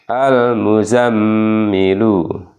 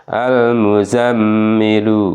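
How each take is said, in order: No difference in how they are said.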